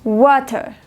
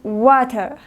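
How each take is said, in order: First: The middle t is a strong, crisp t. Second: The middle t is a strong, crisp t.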